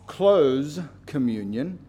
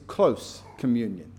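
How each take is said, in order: First: Close ends with a buzzing z sound. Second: Close ends with a hissing s sound. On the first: The communion is shut to outsiders. "this isn't closed communion" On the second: The communion is near and intimate. "but it's close communion"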